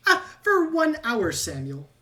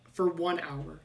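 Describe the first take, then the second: First: Louder, high rat voice, then dropping on the name; exclaiming rat. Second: Said in the usual way. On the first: Acted. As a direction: announce it like a proud inventor. Rat exclaims item effect.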